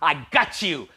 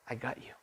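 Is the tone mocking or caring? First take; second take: mocking; caring. First: It is said in a gloating, mocking tone. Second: It is said in a warm, caring tone.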